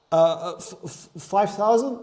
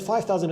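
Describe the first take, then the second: First: Stammering out the number in disbelief; nervous stutter. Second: Said in the usual way. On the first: Retold or imitated. Telling a client his price, stuttering nervously. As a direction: stumble over the f, then ask it nervously. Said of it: "I literally was stuttering". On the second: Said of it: "As, as I said".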